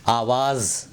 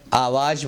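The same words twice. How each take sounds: First: "آواز" ending in a buzzing z; careful "آواز" with z, not j; correct final z. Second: "آواز" ending in j, like aavaaj; mispronounced final j. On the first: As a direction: say "آواز" as aavaaz, z held clearly. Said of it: "آواز بولنا چاہیے". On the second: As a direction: say "آواز" with j replacing the z. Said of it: "آواز غلط ہے". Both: Shown as a demonstration.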